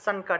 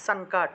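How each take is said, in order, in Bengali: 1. মাঝের অনুনাসিকটি ন-এর মতো উচ্চারিত হয়। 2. মাঝের অনুনাসিকটি ন-এর মতো উচ্চারিত হয়।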